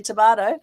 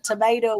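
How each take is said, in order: First: The word is said with an Australian accent. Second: The word is said with an American accent. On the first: This is how the speaker's country says it. "we say" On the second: This is how the listener's country says it. "You say uh"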